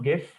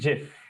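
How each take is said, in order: First: The word begins with a hard G sound. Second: The word begins with a J sound. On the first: The speaker calls it wrong. "the pronunciation of this word is not गिफ" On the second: The speaker calls it right. "The pronunciation is जिफ"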